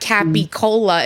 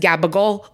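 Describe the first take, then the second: First: The word is said in full, ending in a vowel. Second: The word is clipped, softened and the final vowel dropped. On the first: This is the standard form. "It's not Capicola" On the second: This is the local New York Italian form. "that's New York Italian"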